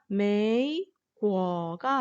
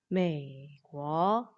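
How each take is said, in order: First: The first syllable dips fully, then rises again. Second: The first syllable stays low, flowing into the next. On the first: The speaker calls it wrong. "메이궈가 아니라" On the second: The speaker calls it right. "삼성은 내려주고 그 연이어서 그 다음 발음의 성조를 이렇게 이어서 말하면 됩니다"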